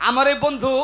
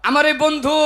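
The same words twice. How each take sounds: Both takes have the same delivery.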